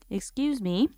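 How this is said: It is said in a polite, gentle tone.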